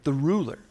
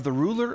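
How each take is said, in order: First: "ruler" given the emphasis; "ruler" as the key word, falling at the end; stress on ruler. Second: Said in the usual way. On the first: Shown as a demonstration. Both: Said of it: "Emphasis on ruler".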